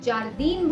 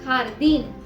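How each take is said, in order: First: It begins with a 'j' sound. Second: It begins with a throaty 'kh' sound. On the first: The speaker calls it wrong. "अगर आप इसे जारदीन बोलेंगे तो ये गलत होगा" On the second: The speaker calls it right. "इसे आप बुलाएंगे ख"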